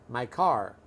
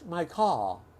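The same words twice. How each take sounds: First: It is said in a Los Angeles accent. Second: It is said in a British accent. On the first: "So in Los Angeles, we say car"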